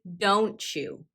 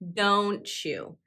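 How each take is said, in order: First: The t and y merge into a ch sound. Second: The t and y merge into a ch sound.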